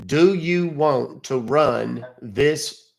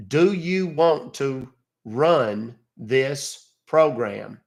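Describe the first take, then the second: First: Slow reading aloud. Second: Drags Do you want to run this program out word by word; very slow spelled-out reading. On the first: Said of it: "what do you see, sir?". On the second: Caller reading the screen to support at a crawl. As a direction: read it at a crawl, like teaching a slow learner. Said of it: "monkeys in Russia that I could teach". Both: Shown as a demonstration.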